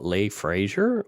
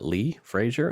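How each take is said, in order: First: The first name has an 'ay' vowel. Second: The first name has an 'ee' vowel. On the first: "Some people pronounce L E Y Lay" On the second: "some pronounce it Lee"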